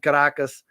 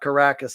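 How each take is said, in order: First: It is said with a Spanish pronunciation. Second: It is said with an anglicized English pronunciation. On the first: The speaker calls it right. "the ability to speak like a like a native Spanish ... I say" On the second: The speaker calls it wrong. "not Caracas"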